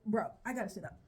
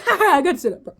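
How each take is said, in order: First: Said in the usual way. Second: Laughing, louder and higher; giggly excitement. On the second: Real, not acted. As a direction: burst out giggling. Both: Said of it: "repeat with laugh".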